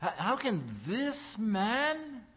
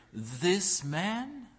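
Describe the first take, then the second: First: "how can this man" slowed, lingering on "man"; slow scornful "this man". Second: "this man" leaned on and drawn out; stress on this man. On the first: Preacher mimicking doubters, slow disbelieving "this man". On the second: Preacher to congregation, stress on "this man". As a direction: weigh the word "man" with scorn. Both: Shown as a demonstration. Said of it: "and note the emphasis here".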